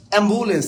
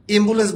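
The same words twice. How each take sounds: First: অ্যাম্বুলেন্স with an open "ae" at the start; open initial vowel. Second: অ্যাম্বুলেন্স mispronounced as "embulens", closer to "im"; closed initial vowel. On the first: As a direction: begin অ্যাম্বুলেন্স like the vowel in "cat". (অ্যাম্বুলেন্স-এর শুরুতে খোলা "অ্যা" ধ্বনি) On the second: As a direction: begin অ্যাম্বুলেন্স with a tight "e", not "ae". (অ্যাম্বুলেন্স-কে "এম্বুলেন্স" বলে উচ্চারণ) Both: Shown as a demonstration. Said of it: "কেউ বলেন তো অ্যাম্বুলেন্স".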